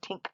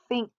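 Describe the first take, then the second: First: The word starts with a plain T sound. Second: The word starts with a TH sound. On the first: The speaker calls it wrong. "times I hear you say this word tink" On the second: The speaker calls it right. "stick your tongue out between your teeth and say think"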